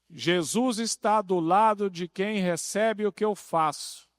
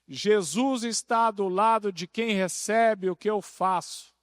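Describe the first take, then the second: The two takes are said the same way.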